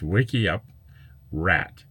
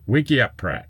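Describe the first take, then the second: First: The last part sounds like 'rat' without a p. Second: The last part sounds like 'pratt' with a p. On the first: The speaker calls it right. "It's two words. Wiki up, ... And add the word rat" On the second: The speaker calls it wrong. "you really have um, uh, difficult time reading my screen name"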